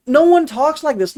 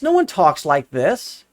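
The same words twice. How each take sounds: First: ONE hit hard, much higher and louder; the exasperated take: punch "one" high and loud; emphatic outburst. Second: Said in the usual way. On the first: Real, not acted.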